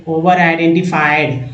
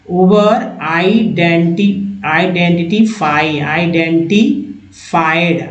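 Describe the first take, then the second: First: Said in the usual way. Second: Slow, spelled-out identified; slowed model reading. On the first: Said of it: "teacher repeats word at normal pace". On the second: Shown as a demonstration. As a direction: sound out identified slowly, syllable by syllable. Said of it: "teacher models word pronunciation".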